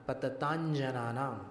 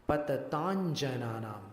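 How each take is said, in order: No difference in how they are said.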